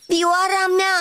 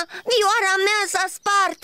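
First: High, frightened outcry; terrified cry. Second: High, slow, crying wail; sobbing wail. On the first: Cricket seeing his violin hit, terrified cry. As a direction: cry out in sudden horror. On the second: Cricket mourning his broken violin, slow sobbing wail. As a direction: break into tears over it. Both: Acted. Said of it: "a strigat îngrozit".

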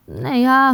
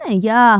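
First: Loud, higher mouse refusal; calling out. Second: Loud mouse refusal; calling out. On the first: Mouse Vert echoing the refusal to carry grain, hollering higher. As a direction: holler it back at a higher pitch. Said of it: "гукає Верть". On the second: Mouse Krut refusing to carry the grain, hollering. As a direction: holler it back with force. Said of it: "гукає Круть". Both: A narrator's reading.

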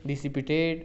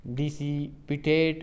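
First: Said in the usual way. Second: Dissipate stretched very slowly, syllable by syllable; drawn-out word. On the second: Shown as a demonstration. Teacher reads the option to students, very slowly. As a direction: let dissipate hang, very slow. Reading an option, then repeating it.

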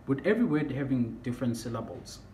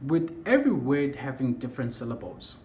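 Both takes have the same delivery.

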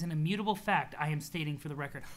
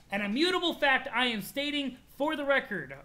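First: Said in the usual way. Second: IMMUTABLE FACT pushed high and hard, each word declared; higher, grandly punched "An immutable fact I am stating"; emphatic declaration. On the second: Acted. Reader relishing a character's line, IMMUTABLE punched high and emphatic.

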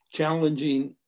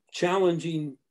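No difference in how they are said.

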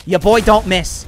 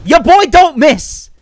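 First: Said in the usual way. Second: Loud high slow brag; loud swagger. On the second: Shown as a demonstration.

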